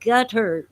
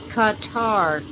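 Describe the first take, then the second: First: The name sounds like the word gutter. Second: The name is said unlike the word gutter. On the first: "I'm told that it's pronounced gutter" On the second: "I don't like to say it that way"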